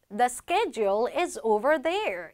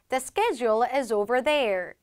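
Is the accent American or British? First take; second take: American; American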